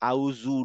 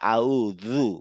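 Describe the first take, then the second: First: The consonant is a plain z sound. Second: The consonant is a th-like sound. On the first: The speaker calls it wrong. "এটাও ভুল উচ্চারণ, কারণ আউজু না" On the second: The speaker calls it right. "জিভটা দাঁতের থেকে বের হয়ে যাবে তখন আউযু"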